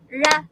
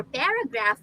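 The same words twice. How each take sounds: First: "paragraph" in three separate, punched beats; syllable by syllable. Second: Said in the usual way. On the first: Shown as a demonstration. Teacher claps out three syllables, beat by beat. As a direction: break "paragraph" into pa-ra-graph with gaps. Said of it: "we can clap to see the unit". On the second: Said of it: "For paragraph, we can".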